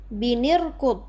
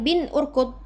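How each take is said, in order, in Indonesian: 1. N bersambung dengan vokal i yang mengikutinya. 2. N bersambung dengan vokal u yang mengikutinya.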